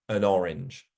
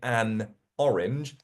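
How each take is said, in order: First: The n sound links into the next word. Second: The two words are said separately. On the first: "we'd say an orange, an orange, like that" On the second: "instead of saying an orange"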